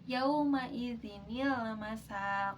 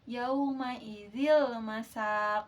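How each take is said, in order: First: A small 'ni' sound is inserted in the middle. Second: The middle goes straight on without an extra 'ni'. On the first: The speaker calls it right. "nun kecilnya itu dibaca" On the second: The speaker calls it wrong. "Jadi bukan seperti ini"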